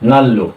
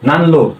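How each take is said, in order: First: The n turns into l, giving double l. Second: An n sound is kept before the l. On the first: "এখানে আমাদের উচ্চারণ কি হবে" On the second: "লিখলো নান। নান হলো লো"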